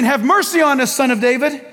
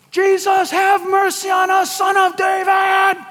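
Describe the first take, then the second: First: Mildly raised, insistent plea; a moderate call for mercy; crying out. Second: Hammed-up yell, stretching the final name. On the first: Acted. Blind men calling out all the more, mildly raised cry. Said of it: "they cried out all the more". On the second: Blind men yelling over the crowd, high holler. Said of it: "they're just yelling all the more".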